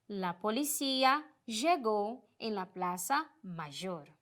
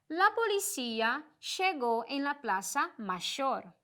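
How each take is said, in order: First: The ll and y are said like zh. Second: The ll and y are said like sh. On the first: "esse j" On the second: "este som mais de sh"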